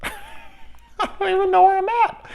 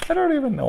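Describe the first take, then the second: First: Very high, laughing squeaky voice; laughing falsetto self-mockery; silly high voice. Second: Faster, higher repeat; brisk slightly raised repeat; quick repeat. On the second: Acted. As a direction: rattle it off again quickly.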